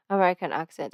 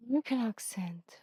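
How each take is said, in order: First: Said in the usual way. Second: Breathy whispered American accent attempt; whispered fake American accent. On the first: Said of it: "let's do a fake American accent". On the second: Shown as a demonstration. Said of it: "I'm so bad at accents".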